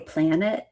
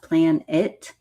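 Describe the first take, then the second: First: The two words are run together as one. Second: The two words are kept clearly separate.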